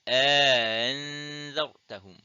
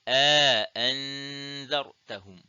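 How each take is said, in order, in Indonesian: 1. Hamzah glotal kedua dilunakkan dan diringankan. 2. Hamzah glotal kedua diucapkan penuh dan jelas. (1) "tashilul hamzati tsaniyati ma'al idkhal" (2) "tahqiqul hamzati tsaniyah ma'al idkhal"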